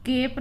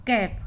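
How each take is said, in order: First: केप with a short e sound; wrong vowel. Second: कैप with the open ae sound; correct vowel. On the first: Teacher shows the wrong vowel in केप. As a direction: say केप as the mistaken reading. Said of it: "केप नहीं है". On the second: Teacher models कैप with the open ae. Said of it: "कैप है". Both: Shown as a demonstration.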